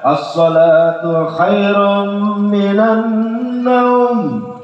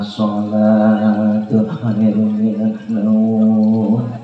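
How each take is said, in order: First: The voice sounds strong, lively and energetic. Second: The voice sounds weak, slow and sleepy. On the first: It makes listeners eager to get up and pray. The speaker calls it right. "kalau yang anak muda" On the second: It makes listeners want to go back to sleep. The speaker calls it wrong. "Jangan yang aki-aki... semangat sholat apa tidur lagi? Tidur"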